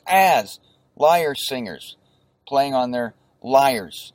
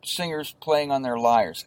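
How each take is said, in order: First: "As lyre singers" spelled out slowly, each word distinct; slow, deliberate demo of "lyre singers"; teacher sounding out "lyres" slowly; careful slow pronunciation. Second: Said in the usual way. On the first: Shown as a demonstration. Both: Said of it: "that's how you pronounce it".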